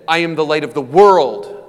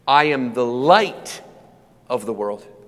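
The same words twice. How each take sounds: First: The stress is on the word world. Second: The stress is on the word light.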